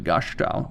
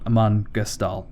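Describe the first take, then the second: First: The name is said German-style, with an sh sound. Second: The name is said plainly, with an s sound. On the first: The speaker calls it wrong. "like I'm German" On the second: The speaker calls it right. "something more vanilla"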